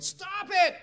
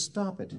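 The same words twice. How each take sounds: First: High-pitched imitated yell; retold yell. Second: Said in the usual way. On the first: Joe to Andrew, reminded of past miracles, yelling. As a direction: cut him off with a high yelled outburst. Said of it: "Joe finally just yelled". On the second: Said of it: "he says".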